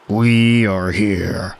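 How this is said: It is said in an Optimus Prime voice.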